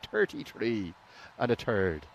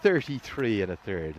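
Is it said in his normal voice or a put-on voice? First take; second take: put-on voice; normal voice. First: It is said in an imitated put-on voice. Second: It is said in his own normal voice.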